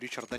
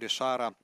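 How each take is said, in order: First: The name is pronounced the English way. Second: The name is pronounced the French way.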